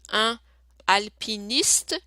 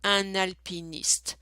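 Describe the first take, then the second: First: The two words are said separately. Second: The two words are joined into one. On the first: The speaker calls it wrong. "instead of reading" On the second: The speaker calls it right. "you're going to read them all together"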